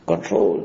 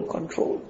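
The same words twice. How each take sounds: First: Said in the usual way. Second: Whispered repeat of control; soft whispered urging. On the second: Real, not acted. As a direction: breathe the word control as a whisper.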